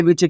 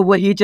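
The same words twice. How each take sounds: First: Which as one beat, "vich"; correct reading. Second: वो हिच as "wa-hich", h sounded; letter-by-letter misreading. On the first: Teacher giving the right reading, which as "vich". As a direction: say which with silent h. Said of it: "आपको क्या पढ़ना है?". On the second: Teacher showing what not to read, वो हिच as "wa-hich". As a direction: split which into वो हिच. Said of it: "वो हिच नहीं पढ़ना". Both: Shown as a demonstration.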